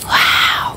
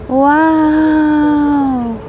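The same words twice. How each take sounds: First: The word is said quietly. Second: The word is said loudly. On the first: "Hinaan ko nga yung boses ko" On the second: "Turistang turista naman"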